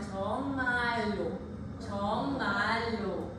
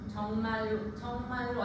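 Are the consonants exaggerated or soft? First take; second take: exaggerated; soft. First: The consonants are strongly exaggerated and clearly closed. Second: The consonants are soft and lightly articulated. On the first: The speaker calls it right. "과하게" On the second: The speaker calls it wrong. "아니라"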